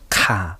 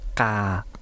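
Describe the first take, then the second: First: The k is said with a puff of air. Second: The k is said without a puff of air. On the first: "有気音だと" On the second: "カを無気音でやると"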